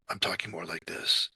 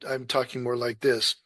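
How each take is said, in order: First: It is said in a weak, breathy voice. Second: It is said in a strong, projected voice.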